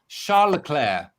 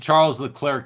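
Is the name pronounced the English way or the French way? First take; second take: French; English. First: The name is said with a French pronunciation. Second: The name is said with an English pronunciation. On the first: The speaker calls it right. "it rolls off the tongue so much nicer" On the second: The speaker calls it wrong. "So I once called him Charles Leclerc"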